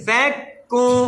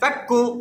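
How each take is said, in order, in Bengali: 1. শব্দটি ধীরে টেনে বলা হয়। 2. শব্দটি ছোট স্বরধ্বনি দিয়ে দ্রুত বলা হয়। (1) "স্লো মোশনে" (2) "আপনি যদি এভাবে বলেন ফাক্কু তাহলে ফাটা খুব দ্রুত হয়েছে"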